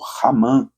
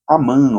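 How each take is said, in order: First: The name starts with a breathy h-like sound. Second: The name starts directly with a vowel sound.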